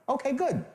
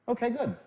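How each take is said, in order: The two takes are said the same way.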